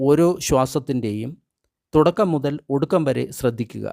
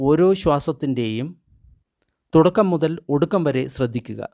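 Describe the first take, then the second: No difference in how they are said.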